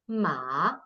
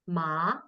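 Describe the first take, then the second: First: It is said with the third tone. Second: It is said with the second tone. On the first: "ma is third tone" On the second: "ma is second tone"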